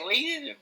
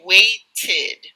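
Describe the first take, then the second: First: The final -ed ending is swallowed or dropped. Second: The final -ed ending is clearly, even exaggeratedly, pronounced. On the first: The speaker calls it wrong. "people may say waited, you know, and not pronunciate it" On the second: The speaker calls it right. "maybe exaggerate a little bit"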